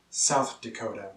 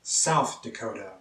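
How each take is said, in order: Both takes have the same delivery.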